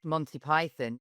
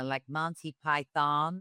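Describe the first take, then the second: First: Said in the usual way. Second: Drawn-out American "Monty Python"; mock an American fan slowly savouring "Monty Python"; American accent. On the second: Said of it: "You meet Americans, even now, they're like".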